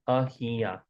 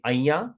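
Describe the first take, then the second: First: The h sound in the middle is pronounced. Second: The h sound in the middle is dropped. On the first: This is the written or formal form. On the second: This is how it is said in everyday speech.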